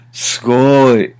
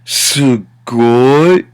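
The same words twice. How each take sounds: First: Impressed wow. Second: "sugoi" drawn out with a rising finish; exaggerated. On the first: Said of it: "There are a million ways to say it". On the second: Teacher shows how it can get exaggerated, hugely stretched "sugoi". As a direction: blow "sugoi" up into a long wow. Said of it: "how it can really get exaggerated". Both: Shown as a demonstration.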